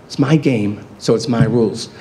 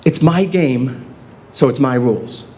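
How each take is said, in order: First: Said in the usual way. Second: It's my game said very slowly, each word set apart; slow deliberate motto. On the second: Shown as a demonstration. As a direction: spell out the motto slowly, like a rule. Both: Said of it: "repeated motto".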